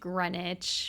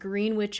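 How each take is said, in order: First: It is said in the usual way, like 'grenich'. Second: It is said like 'green' plus 'witch'. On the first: The speaker calls it right. "I know it's pronounced Greenwich" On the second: The speaker calls it wrong. "what Elphaba calls it when she's in a bad mood"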